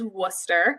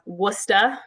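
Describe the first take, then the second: First: It ends with an r-colored 'er' sound. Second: It ends with an open 'ah' sound.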